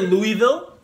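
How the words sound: It is said the Canadian way.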